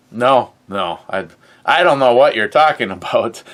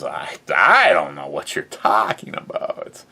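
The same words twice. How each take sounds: First: Quick, louder fake-innocent protest; mock innocent denial. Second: Lower, put-on voice for a hammed-up denial; put-on deep voice. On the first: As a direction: play dumb, fast and loud. Feigning innocence about guns. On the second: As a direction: drop into a silly low voice and deny it.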